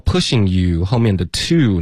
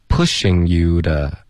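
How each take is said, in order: First: Said in the usual way. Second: "Pushing you的" slowly, "to" softened into "de"; weak form of to. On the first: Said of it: "他就把它发成一个的的音". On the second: Shown as a demonstration. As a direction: reduce "to" to an unstressed "duh" after "Pushing you". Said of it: "他就弱读了".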